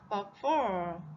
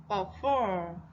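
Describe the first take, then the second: No difference in how they are said.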